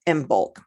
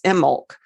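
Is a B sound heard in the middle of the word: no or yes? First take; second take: yes; no. First: The B sound is pronounced. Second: The B sound is left out. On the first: This is how the speaker has always said it. "I've always called it Imbolc" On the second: This is the Gaelic way to say it. "the B is not pronounced. It's Imbolc in Gaelic"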